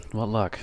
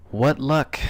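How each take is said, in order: First: Deadpan "What luck" with a falling end; flat sarcasm. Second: Sarcastic "What luck" pitched up. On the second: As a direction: sneer out "What luck" high and bright. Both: Shown as a demonstration.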